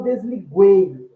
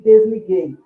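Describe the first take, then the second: First: The u after the g is pronounced. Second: The u after the g is silent. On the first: The speaker calls it wrong. "eu não falo desliguei" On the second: The speaker calls it right. "eu falo ... desliguei ... o dígrafo G U formando o fonema G"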